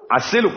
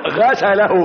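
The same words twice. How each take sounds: First: عسله said with the throaty ʿayn, "ʿasalahu"; correct reading. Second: غسله said with a plain ghayn, as the misprint has it; wrong reading. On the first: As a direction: give عسله a clear ʿayn in place of the ghayn. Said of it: "والصحيح عسله". (النطق الصحيح: عسله بالعين) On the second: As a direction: say غسله with the ghayn sound, like "washed him". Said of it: "حرفت في بعض الطبعات غسله". (نطق خاطئ: غسله بالغين) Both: Shown as a demonstration.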